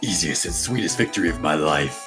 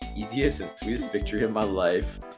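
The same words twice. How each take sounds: First: It is said imitating Von Karma's voice. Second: It is said in the speaker's normal voice.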